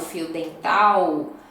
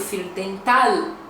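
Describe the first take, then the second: First: The final L sounds like a U vowel. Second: The final L is clearly pronounced as L. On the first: This is how the speaker's own region says it. "diferente do nosso L, né, no final, que é com U" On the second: This is how people from the south say it. "eles já vão falar esse L bem pronunciado"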